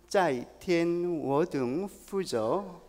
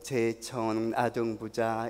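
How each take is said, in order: First: It is read with Mandarin Chinese sounds. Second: It is read with Korean character sounds. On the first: "이걸 중국어로 읽게 되면은" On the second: "한국 발음으로 읽었던 거예요"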